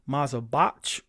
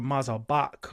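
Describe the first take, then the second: First: The word ends with a 'ch' as in church. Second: The word ends with a hard 'k' sound. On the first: "the C H as in church" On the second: "I learned it as a hard K sound"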